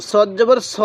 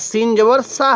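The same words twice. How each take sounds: First: স with a rounded "aw" vowel; heavy সদ, ending in rounded স; heavy S demo. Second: সা with a thin s and open "aa"; light সিন, ending in open সা; thin S sound. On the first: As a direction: say স full, as saw. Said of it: "সদ জবর স হবে". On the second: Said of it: "সিনের আওয়াজটা একটু চিকন করে". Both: Shown as a demonstration.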